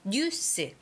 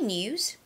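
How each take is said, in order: First: It is said with choppy Korean syllables. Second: It is said with smooth English pronunciation. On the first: "but we say 뉴스" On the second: "We say news"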